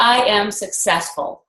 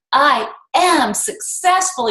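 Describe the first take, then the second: First: Said in the usual way. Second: Slow, drawn-out I am successful with the am lifted; believing it. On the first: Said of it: "each one three times with different emphasis". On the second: Shown as a demonstration. Coach to team, final heartfelt repeat, slow and convinced. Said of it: "by the time you get to the last one".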